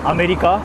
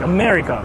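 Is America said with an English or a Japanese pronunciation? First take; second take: Japanese; English. First: It is said with a Japanese-style pronunciation. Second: It is said with an English-style pronunciation. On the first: "why Japanese people say" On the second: "instead of like America"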